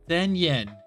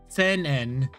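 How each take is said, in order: First: The words flow together with a y-glide. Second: The words are split with an abrupt break. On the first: The speaker calls it right. "Like it goes from low to high" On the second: The speaker calls it wrong. "Sen En feels a bit more like abrupt"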